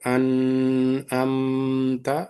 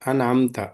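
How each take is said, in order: First: The m sound is drawn out and held. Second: The m sound is short and released quickly. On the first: The speaker calls it wrong. "తప్పు, wrong" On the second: The speaker calls it right. "ఇక్కడ దీర్ఘం తీయకూడదు"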